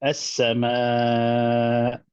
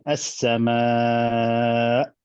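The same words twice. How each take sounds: First: As-sama drawn out very slowly with a stressed beat; slow as-sama with nabr; first take, with nabr. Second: As-sama drawn out slowly, evenly, with no extra stress; slow even as-sama without nabr; second take, no nabr. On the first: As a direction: stretch as-sama out slowly with nabr on the long vowel. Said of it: "first one, I'll say". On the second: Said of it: "and then". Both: Shown as a demonstration.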